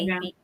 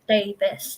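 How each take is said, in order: First: The name ends with a long 'veez' sound. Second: The name ends with a short 'vis' sound. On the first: The speaker calls it wrong. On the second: The speaker calls it right. "it's pronounced as Davis"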